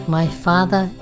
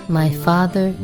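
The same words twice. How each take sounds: No difference in how they are said.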